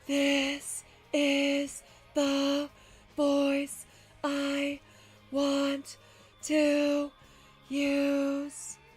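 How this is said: It is said at a low pitch.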